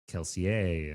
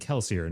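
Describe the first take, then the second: First: The name is said with a French accent. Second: The name is said with an English accent. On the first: This is the author's intended pronunciation. The speaker calls it right. "should be pronounced with like a French accent" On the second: This is how listeners learned it from the audiobook. The speaker calls it wrong. "pronouncing it the narrator's way"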